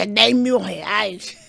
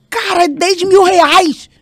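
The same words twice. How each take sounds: First: Louder and very slow, laughing through "dez mil reais" with a rising end; laughing disbelief. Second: Much higher and louder, slow and outraged, stressing "mil"; shocked shout. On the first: Retelling the husband's ticket price to listeners, laughing disbelief. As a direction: repeat the price laughing at how absurd it is. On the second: To her calm husband about the price, shocked shout. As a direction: yell "Cara, é dez mil reais" in disbelief. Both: Retold or imitated. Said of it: "E eu senti ele muito calmo".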